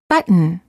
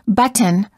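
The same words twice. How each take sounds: First: The T sound is held before the N. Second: The T sound is released before the N. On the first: The speaker calls it right. "we say button. Hold the T" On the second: The speaker calls it wrong. "we don't say"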